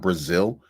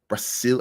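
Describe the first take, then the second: First: The middle consonant is a buzzing Z sound. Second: The middle consonant is a hissing S sound. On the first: The speaker calls it wrong. "and not Brazil" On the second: The speaker calls it right. "you have to say Brazil ... There's no Z in it"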